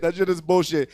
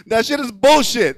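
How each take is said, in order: First: Said in the usual way. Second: Louder take. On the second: Shown as a demonstration.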